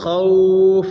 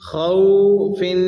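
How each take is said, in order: First: The word stops abruptly on the 'f' sound. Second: The word ends with a nasal 'in' sound. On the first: "वक़फ़न स्टॉप की सूरत में दोनों ज़ेरें ख़त्म हो जाएंगी" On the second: "फ़ा के नीचे दो ज़ेर हैं गुन्ना होगा"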